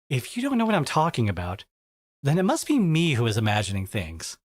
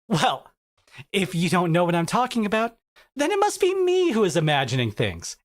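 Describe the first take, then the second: First: It is said in a neutral tone. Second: It is said in an aggressive tone.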